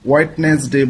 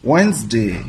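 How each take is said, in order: First: The d is pronounced, giving three syllables. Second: The d is silent, giving two syllables. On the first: The speaker calls it wrong. "এটাকে আমরা অনেকে ভুল উচ্চারণ করে থাকি" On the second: The speaker calls it right. "আসলে উচ্চারণটা হবে ওয়েন্সডে"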